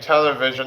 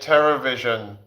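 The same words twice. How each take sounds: First: The word is said in a plain accent. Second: The word is said in an imitated Chinese accent. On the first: "instead of saying television" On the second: "I say television in the Chinese"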